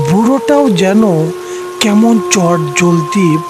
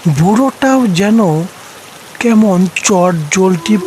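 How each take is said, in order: Both takes have the same delivery.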